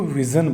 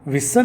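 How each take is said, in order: First: The middle consonant is a buzzing 'zh' sound. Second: The middle consonant is a hissing 's' sound. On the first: The speaker calls it right. "उसको विज़न बोलते हैं" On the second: The speaker calls it wrong. "उसको विसन नहीं बोलते हैं"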